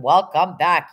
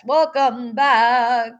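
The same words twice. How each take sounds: First: Said in the usual way. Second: Higher, slow, drawn-out welcome back; slow, high, sung-out welcome; singsong greeting. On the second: Real, not acted. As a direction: stretch welcome back out like a song. Greets returning chat members in singsong.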